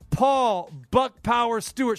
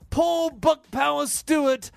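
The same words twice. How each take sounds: First: It is said in the speaker's natural accent. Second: It is said in a put-on English accent.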